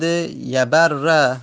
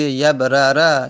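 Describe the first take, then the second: First: Slow "یبر" as ya-bar-ra, r held; merged double r. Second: "یبرر" as yab-ra-ra, louder, two separate r's; unmerged original form. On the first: Teacher giving the merged example, "یبر" drawn out with geminated r. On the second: Teacher showing the original form, "یبرر" with each r voweled separately. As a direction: split "یبرر" into two r syllables. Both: Shown as a demonstration. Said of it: "اصلش بوده یبرر".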